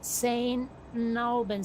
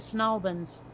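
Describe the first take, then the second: First: The name is said with both words distinct. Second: The name is squeezed into one short word. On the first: "for a lot of people it's Saint Albans" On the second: "it gets truncated down to Snalbans"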